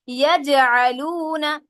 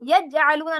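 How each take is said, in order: First: The j sound is released with a bouncing echo. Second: The j sound is held flat without an echo. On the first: The speaker calls it right. "जीम साकिन आ गया तो इसे क्या करेंगे" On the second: The speaker calls it wrong. "नहीं करूंगे"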